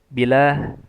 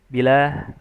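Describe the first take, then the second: First: The vowel after the b is cut short. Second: The same.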